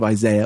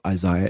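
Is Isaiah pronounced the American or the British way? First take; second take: American; British. First: The name is said the American way. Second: The name is said the British way.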